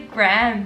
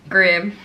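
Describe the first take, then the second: First: The name is said in an American accent. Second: The name is said in a British accent.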